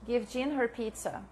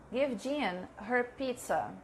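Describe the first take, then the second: First: Teacher repeating the model sentence with a little weight on her; light stress on her. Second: Slow model sentence. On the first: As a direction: Give Jean her pizza with her picked out a little. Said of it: "Here we have two complements". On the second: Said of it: "I don't know how to say this". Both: Shown as a demonstration.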